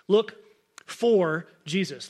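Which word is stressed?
for. The word 'for' carries the main stress. It sounds as if he is lost and cannot be found. The speaker calls it wrong. "when I say that out loud, I emphasize the word for"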